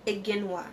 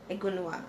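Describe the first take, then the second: First: "Iginwa" said ih-GIN-wah; tentative pronunciation. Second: Softer "Iginwa", said uh-GUN-wah; unsure, quieter uh-GUN-wah for "Iginwa"; second pronunciation attempt. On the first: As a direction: try "Iginwa" with an ih in the middle. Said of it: "I don't know how to pronounce it". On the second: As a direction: try "Iginwa" with a rounded middle vowel, uh-GUUN-wah. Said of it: "I think that's how you pronounce it". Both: Shown as a demonstration.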